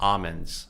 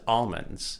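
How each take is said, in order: First: The L sound is left silent. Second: The L sound is clearly pronounced. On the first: The speaker calls it wrong. "My girl says almonds" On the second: The speaker calls it right. "it's almonds with an L"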